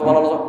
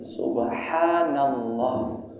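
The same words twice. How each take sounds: First: It is said very fast and rushed. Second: It is said at a calm, normal pace. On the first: The speaker calls it wrong. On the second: The speaker calls it right.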